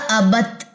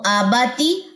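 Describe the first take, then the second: First: The word ends on a stopped consonant. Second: The word ends with a short 'i' vowel. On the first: "ता की जेर को ड्रॉप कर देंगे" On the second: "जेर आ रहा है"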